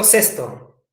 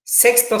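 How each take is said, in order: First: "cesto" as SES-to, no k sound, pitched low; "cesto" falling, without any k; contrastive articulation. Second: "Sexto" with the ks cluster sounded, pitched high; "Sexto" as SEKS-to, first of a contrast; contrastive articulation. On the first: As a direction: drop lower on "cesto", plain s before the t. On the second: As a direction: say "Sexto" higher, with a clear k before the s. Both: Shown as a demonstration. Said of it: "parecida pronunciación".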